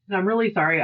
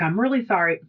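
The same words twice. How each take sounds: First: A whispered, sheepish "I'm really sorry"; whispered apology. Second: Said in the usual way. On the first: Retold or imitated. Coworker apologising, repeated whispered.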